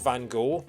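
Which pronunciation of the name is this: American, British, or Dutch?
American. The name is said in an American way. "Americans call him Van Gogh"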